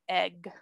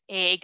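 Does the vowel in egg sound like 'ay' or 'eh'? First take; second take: eh; ay. First: The vowel sounds like a short 'eh'. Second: The vowel sounds like a long 'ay'. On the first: "It's hard to even say" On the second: "I say it with a long A"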